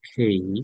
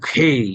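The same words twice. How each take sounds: First: The k sound is light and gentle. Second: The k sound is harsh and heavily forced. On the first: The speaker calls it right. "Soft" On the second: The speaker calls it wrong. "এত বেশি কঠিন খেই এরকম না"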